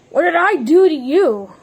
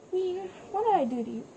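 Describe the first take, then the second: First: Mock-angry demand. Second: Quiet rushed take. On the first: Player fake-mad at the one who tried to kill him, mock anger. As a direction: demand it now, voice up. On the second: Acted. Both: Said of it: "I'm just getting really mad".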